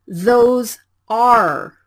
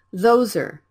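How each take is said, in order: First: "Those are" as two separate, fully spoken words, a bit louder; wrong careful way. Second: "those are" run together, the vowel of "are" reduced to a quick er; blended linking. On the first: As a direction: say "Those" and "are" apart, each word clear. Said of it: "Don't say it like". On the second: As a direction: glide "those" straight into "are". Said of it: "you need to speak it as". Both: Shown as a demonstration.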